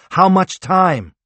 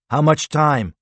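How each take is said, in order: First: Slow, loud, high repeated shout; yelling while running away. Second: Shouted on the run; yelling while running away. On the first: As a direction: demand it again, louder and slower. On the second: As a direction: call back mid-sprint. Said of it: "Harvath shouted as he ran". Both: A narrator's reading.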